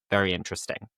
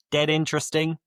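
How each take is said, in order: First: Said in the usual way. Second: A hint of Scouse, pitched higher on "Dead interesting"; lightly Scouse colloquial example; Scouse phrase. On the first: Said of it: "you're saying it is very". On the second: Shown as a demonstration. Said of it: "If you say that something is dead good".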